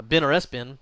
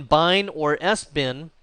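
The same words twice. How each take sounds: First: BIN said with a short i, rhyming with tin; short-i pronunciation. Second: First BIN said like "bine", rhyming with fine; alternative pronunciation. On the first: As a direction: say both "bin"s like the word for a container. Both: Shown as a demonstration. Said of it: "depending on how you want to pronounce that".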